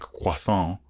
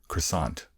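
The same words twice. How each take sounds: First: The word is said with a French-like pronunciation. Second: The word is said with an American pronunciation. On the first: "that pronunciation is closer to the real French" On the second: "the American croissant"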